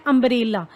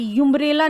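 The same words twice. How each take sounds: First: अम्ब्रेला begun with a short "uh"; short "uh" sound. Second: यूम्ब्रेला begun with a "yoo" sound; mispronounced यूम्ब्रेला, opening like "you"; wrong "yoo" sound. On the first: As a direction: say अम्ब्रेला with an open vowel, no "y" before it. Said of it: "यूम्ब्रेला नहीं है". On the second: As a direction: say यूम्ब्रेला with "yoo" as the first vowel. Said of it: "यू की sound नहीं आ रही". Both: Shown as a demonstration.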